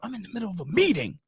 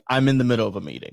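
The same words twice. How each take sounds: First: It is said without a tired tone. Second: It is said in a tired, weary tone. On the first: "Did you say it like that?" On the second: "with a tired face, like"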